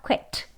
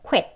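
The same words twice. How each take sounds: First: Quit said softer, plain kw with no rounded 우 lead; wrong quit. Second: Quit with the final t stopped, unreleased; right quit. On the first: Teacher showing the wrong quit, said softly. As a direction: say quit without the 우 glide, the wrong way. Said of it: "이렇게 안 하고요". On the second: Teacher giving the correct quit with a stopped t. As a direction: cut quit off at a held t. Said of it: "stop t로 멈추는 발음으로 그냥 quit". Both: Shown as a demonstration.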